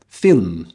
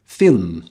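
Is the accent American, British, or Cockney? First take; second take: British; British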